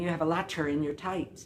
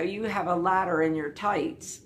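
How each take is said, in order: First: The middle of 'ladder' has a crisp T sound. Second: The middle of 'ladder' has a soft D sound.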